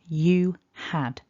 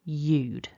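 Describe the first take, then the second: First: It is said as two full syllables. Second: It is said as one short syllable. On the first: "So that's two syllables, one each across the two words" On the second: "we've gone down to one syllable"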